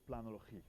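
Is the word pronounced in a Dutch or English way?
Dutch. The word is pronounced the Dutch way. "if I pronounce that in a Dutch way"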